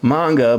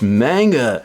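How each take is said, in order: First: The first vowel is an open 'ah'. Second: The first vowel is not an open 'ah'. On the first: This follows the original Japanese pronunciation. "There's only a ah sound, and that's why it really is pronounced manga" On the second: This is the form people insist on. "people keep telling me, it's manga"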